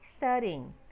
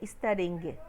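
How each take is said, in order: First: The ending has no audible hard g sound. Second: The ending has an audible hard g sound. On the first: The speaker calls it right. "eu não pronunciei o G do final" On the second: The speaker calls it wrong. "Eu não falei studying. Não coloquei esse G no final"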